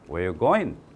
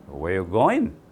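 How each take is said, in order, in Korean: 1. 빠르게 발음하며 'are'는 빠집니다. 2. 빠르게 발음하며 'are'는 빠집니다.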